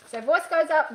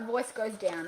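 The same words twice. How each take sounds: First: UP lifted in pitch; voice going up. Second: DOWN dropped soft and low; voice going down. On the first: Coach recaps the first option's tune, rising on up. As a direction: raise the voice through to up. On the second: Coach recaps the second option's tune, falling softly on down. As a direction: let it fall away on down. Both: Shown as a demonstration.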